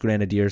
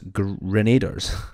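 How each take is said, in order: First: The word ends in '-adiers', with the '-iers' sound. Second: The word ends in '-aders', without the '-iers' sound. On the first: The speaker calls it right. "it is pronounced grenadiers" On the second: The speaker calls it wrong. "I call the grenaders grenaders"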